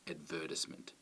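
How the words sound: It has the Australian stress placement. "where we tend to say"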